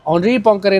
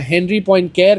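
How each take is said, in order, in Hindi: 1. नाम फ़्रेंच उच्चारण के साथ बोला जाता है। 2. नाम अंग्रेज़ी अक्षरों की ध्वनियों से पढ़ा जाता है।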